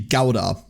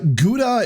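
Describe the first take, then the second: First: Gouda is said with a German pronunciation. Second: Gouda is said with an English pronunciation. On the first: "the German pr- version to pronounce it would be Gouda" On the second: "Gouda is the way that a lot of English-speaking um, people pronounce it"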